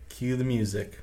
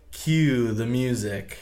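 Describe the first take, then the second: First: It is said quietly. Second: It is said loudly.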